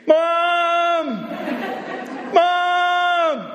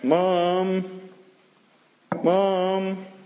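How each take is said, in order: First: It is shouted very loudly and desperately. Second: It is called at moderate loudness.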